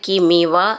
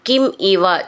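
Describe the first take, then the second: First: The two words are joined into one. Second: The two words are said separately.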